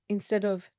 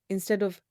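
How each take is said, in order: No difference in how they are said.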